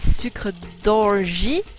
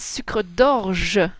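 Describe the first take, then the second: First: The word ends with an 'ee' vowel sound. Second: The word ends with an 'eh' vowel sound. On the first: The speaker calls it wrong. "that's really weird, you know, you shouldn't say that" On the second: The speaker calls it right. "Here it's e at the end, not I"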